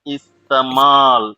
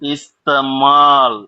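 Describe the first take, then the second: First: The second vowel is a long drawn-out aa. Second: The same.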